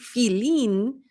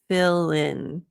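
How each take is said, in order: First: The first vowel is a long 'ee' sound. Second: The first vowel is a short 'ih' sound. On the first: The speaker calls it wrong. "if you're pronouncing your I's like E" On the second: The speaker calls it right. "so it's not E, but uh"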